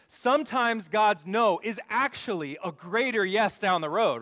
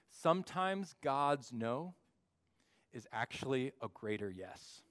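First: Loud, high, punchy restatement; raised-voice preacher driving the point home; emphatic wake-up repeat. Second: Said in the usual way. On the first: Shown as a demonstration. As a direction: say it again louder to wake up the room. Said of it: "You guys are still waking up". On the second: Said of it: "Let me say that again".

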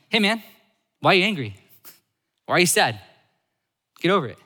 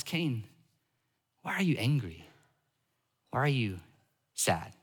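First: Loud, higher-pitched, mock impatient challenge; brusque dismissal. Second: Soft, unhurried question with long pauses; gentle questioning. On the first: God as the wounded reader imagines him, brusque dismissal. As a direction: toss each line out loudly, with no sympathy. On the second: Acted. God speaking to hurt Cain, gentle questioning. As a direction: ask softly, leaving room for an answer.

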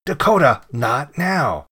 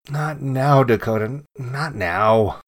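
First: Loud, higher call on the name, easing after; annoyed yell. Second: Mildly firm brush-off of the dog; dismissive. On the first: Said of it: "in an annoyed voice". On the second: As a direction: wave the dog away, voice only slightly raised. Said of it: "waved my hand in the air and said". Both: A narrator's reading.

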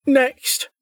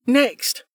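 First: High, bored official call; bored woman. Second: High, bored call from the desk; bored official. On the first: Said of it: "called a bored woman's voice". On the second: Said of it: "called the board official". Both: A narrator's reading.

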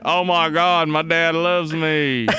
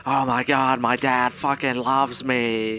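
First: Put-on student voice, drawn out at the end; mock-moved son, stretching the last words; Nate. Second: Put-on student voice, slow at the end; comic impersonation of an overwhelmed son; Nate. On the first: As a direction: gush as a student impersonation. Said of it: "And Nate's like". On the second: Shown as a demonstration. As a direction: demonstrate the student's voice, stretching the last words. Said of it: "It's kinda like that".

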